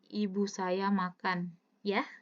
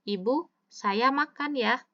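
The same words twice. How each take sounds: First: It is said as one phrase without a pause. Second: There is a pause after the first word. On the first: The mother is the one eating. "Berarti ibunya kan yang makan sebenarnya" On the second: The speaker is the one eating. "Berarti yang makan siapa? Saya kan?"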